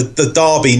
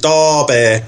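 First: Said in the usual way. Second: "Derby" said as "Dar-beh" in local accent. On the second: Shown as a demonstration. Showing a difficult local accent, "Derby" in Derby accent. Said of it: "difficult accents like the".

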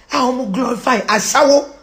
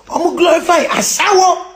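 First: Said in the usual way. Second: Higher, more forceful delivery; raised-voice exclamation; indignant repeat. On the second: Real, not acted. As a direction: hammer it home indignantly.

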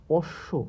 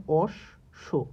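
First: Said in the usual way. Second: অশ্ব said slowly as osh-sho with the sh held double; doubled consonant demo. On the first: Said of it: "দ্বিত্ব উচ্চারণ হবে". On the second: Shown as a demonstration. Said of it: "ক দুইবার উচ্চারণ হচ্ছে".

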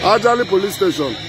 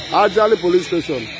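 Both takes have the same delivery.

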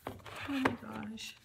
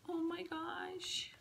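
First: Said in the usual way. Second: Higher, slow hushed whisper; awed whisper. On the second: Real, not acted. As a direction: whisper it in awe.

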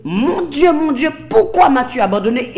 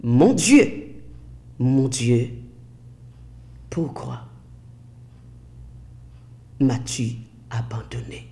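First: MON DIEU and POURQUOI punched higher and louder; emphatic, raised reading stressing "pourquoi"; underlined quote. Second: Soft, fading plea, phrase by phrase; hushed translation. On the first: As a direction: drive home "pourquoi" in a raised, quicker run. Vous allez souligner. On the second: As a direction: let it sink almost to a whisper. Slow translation of the cry. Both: Retold or imitated.

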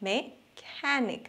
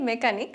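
First: মেকানিক said very slowly and softly as "meh-KA-nik"; slow, soft English মেকানিক with stress on "ka"; careful demo of মেকানিক, stress on the middle; English pronunciation. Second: মেকানিক said the local way as "me-ka-nik"; মেকানিক in plain Bangla style; the usual local মেকানিক; Bangla pronunciation. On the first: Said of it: "ইংরেজিতে উচ্চারণটা". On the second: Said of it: "কোনোটাতেই মেকানিক বলে না". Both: Shown as a demonstration.

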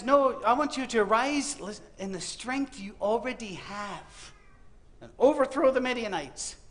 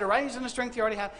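First: God's command, slow and deliberate. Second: Quick, light run through the words; brisk retelling. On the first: God commanding a frightened Gideon, slow and solemn. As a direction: speak it slowly, like a weighty divine command. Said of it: "And God says". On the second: Preacher recapping God's command to Gideon, quick and light. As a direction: rattle off the command fast. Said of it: "God looked at Gideon and said". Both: Acted.

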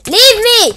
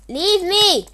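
First: Full scream, much higher and louder; screaming shout. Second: Loud pleading shout, pitch higher; desperate shout. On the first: Player screaming at the attacker who won't stop, full scream. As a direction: scream it at the top of your lungs. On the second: Player begging the chasing attacker, loud desperate shout. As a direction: beg loudly to be left alone. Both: Real, not acted.

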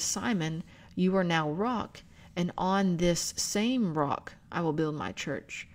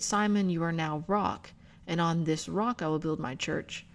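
First: Slow down and press the word "same"; stress on same. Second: Said in the usual way. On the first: Shown as a demonstration. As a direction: lean on "same" in "this same rock", slowed down. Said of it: "what it says in the Greek is". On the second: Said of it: "it does not merely say that".

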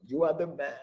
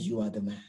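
First: "are" punched as the key word; "you ARE the man" with a firm falling stress. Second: "You are the man" with the weight on "You", spoken low; stress on you. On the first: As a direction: insist on "are", falling at the end. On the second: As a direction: lean into "You" as an accusation. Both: Acted. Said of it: "And Nathan said".

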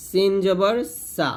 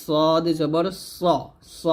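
First: Light সিন and সা; thin S. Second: Thick সদ and rounded স; heavy S. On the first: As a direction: keep সা flat and thin. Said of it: "সিন পাতলা হবে". (পাতলা করে সিন, সা) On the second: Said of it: "সদ মোটা হবে". (মোটা করে সদ, স) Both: Shown as a demonstration.

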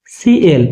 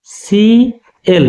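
First: Said in the usual way. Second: "সিএল" drawn out very slowly, each sound held; slow model pronunciation. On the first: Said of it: "কি হবে?". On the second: Shown as a demonstration. Teacher modelling the word for students, very slow and drawn out. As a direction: stretch "সিএল" out slowly for the class. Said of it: "তাহলে ইংরেজিতে ওটা হবে".

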